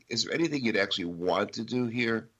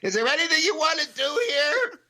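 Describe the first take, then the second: First: It is said in a calm tone. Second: It is said in a loud, panicky tone.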